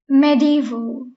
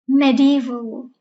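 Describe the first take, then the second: The two takes are said the same way.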